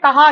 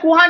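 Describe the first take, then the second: First: The first vowel is a short a. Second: The first vowel is a short u. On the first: The speaker calls it right. "आपने कहा ही पढ़ा" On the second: The speaker calls it wrong. "किहा या कुहा नहीं पढ़ा"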